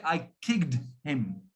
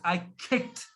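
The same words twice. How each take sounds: First: "kicked" said slowly, consonants hard and the ending stressed; wrong way, heavy consonants. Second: "kicked" said short with a soft final t and the vowel carrying it; correct, consonants light. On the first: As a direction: spit out the k sounds of "kicked". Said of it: "it's totally incorrect". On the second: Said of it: "What you should be saying is". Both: Shown as a demonstration.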